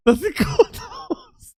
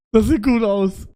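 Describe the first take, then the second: First: Squeaky high, slow, sweet repeat; mock high voice. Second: Said in the usual way. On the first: Streamer mocking a viewer's compliment in a high voice. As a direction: echo it up high, drawn out.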